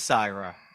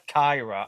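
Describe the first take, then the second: First: The name begins with an S sound. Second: The name begins with a K sound. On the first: This is the band's own pronunciation. "it is Syra" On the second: This is how people in the southern hemisphere say it. "everyone on the southern hemisphere says that it's [name]"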